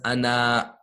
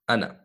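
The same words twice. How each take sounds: First: The final vowel is drawn out long. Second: The final vowel is kept short. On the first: The speaker calls it wrong. "Ana is not pronounced as ana" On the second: The speaker calls it right. "Ana is pronounced as ana"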